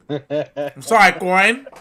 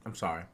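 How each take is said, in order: First: Loud, slow, drawn-out sorry that rises at the end; loud mock apology. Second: Said in the usual way. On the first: Hams up a loud apology to Corin, high and drawn out. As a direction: stretch out sorry, louder and higher.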